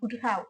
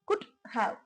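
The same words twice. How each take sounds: First: The two words are run together. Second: The two words are said separately. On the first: "இதை நம்ம சேர்த்தே சொல்லலாம்" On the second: "பிரிச்சு சொல்லும் போது"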